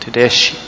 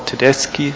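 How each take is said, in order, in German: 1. Das Wort wird auf eine ungewöhnliche Art gesagt. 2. Das Wort wird auf die übliche Art gesagt. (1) "sondern Tedeschi" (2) "No, Tedeschi"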